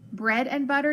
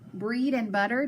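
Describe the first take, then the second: First: The first word has a short E vowel. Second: The first word has a long E vowel. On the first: The speaker calls it right. "make it a short E, silent A" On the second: The speaker calls it wrong. "the long E, silent A"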